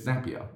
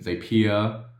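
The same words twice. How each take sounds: First: The word rhymes with happier, starting like zap. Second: The word does not rhyme with happier. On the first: The speaker calls it right. "It's Zapier" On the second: The speaker calls it wrong. "People say Zapier and Zapier"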